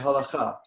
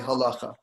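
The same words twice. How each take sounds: First: It is said with a Sephardic, Israeli-style pronunciation. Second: It is said with an Ashkenazic pronunciation. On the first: This is how most people in Israel say it.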